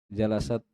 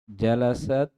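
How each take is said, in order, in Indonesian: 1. Konsonan terakhirnya keluar seperti s. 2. Konsonan terakhirnya bunyi t yang jelas.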